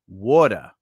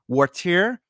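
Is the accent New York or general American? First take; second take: New York; general American. First: It is said in a New York accent. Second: It is said in a general American accent.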